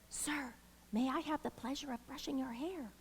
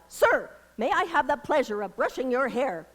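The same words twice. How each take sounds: First: It is said softly and demurely. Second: It is blurted out loudly.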